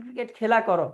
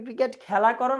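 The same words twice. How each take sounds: First: খেলা as "khela", close e; close vowel. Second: খেলা as "khæla", open æ; open vowel. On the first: Teacher giving the cricket alternative, খেলা with close e. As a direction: keep the vowel in খেলা narrow. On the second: Teacher asking about playing cricket, খেলা with open æ. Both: Shown as a demonstration. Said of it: "এটাকে বিবৃত উচ্চারণ বলে".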